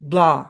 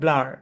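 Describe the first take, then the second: First: British accent, with no final r sound. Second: American accent, with the final r pronounced. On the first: "ব্রিটিশে ব্লা" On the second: "আমেরিকানে ব্লার"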